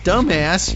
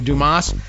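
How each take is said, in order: First: The name is said like the word dumbass. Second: The name is said the French way, doo-MAH. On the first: "could possibly be pronounced dumbass" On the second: "maybe I should say like French"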